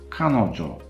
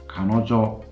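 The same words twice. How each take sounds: First: The pitch is high first, then drops. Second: The pitch does not drop after the first syllable. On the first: The speaker calls it right. "they are atamadaka" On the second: The speaker calls it wrong. "That doesn't sound right"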